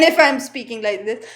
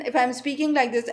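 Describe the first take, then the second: First: Sample voice with a firmer onset; voice modulation demo, changed take. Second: Voice modulation demo, first take. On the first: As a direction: come in a touch louder to show the change. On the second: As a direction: demonstrate a restrained speaking voice. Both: Shown as a demonstration. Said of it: "there is a change in the voice".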